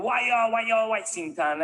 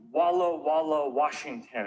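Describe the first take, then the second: First: Exaggerated Spanish accent, pitched up and drawn out; mock Spanish accent. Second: Said in the usual way. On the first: Comedian giving in to the correctors, mock Spanish accent. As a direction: ham up the Spanish pronunciation slowly. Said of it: "You can't force me to speak Spanish".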